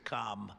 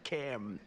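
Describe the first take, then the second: First: The vowel sounds long, as in 'calm'. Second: The vowel sounds short, as in 'cam'. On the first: This is how another person's name is said. "as opposed to Calm" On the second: This is how this person's name is said. "it's a little different. It's Cam"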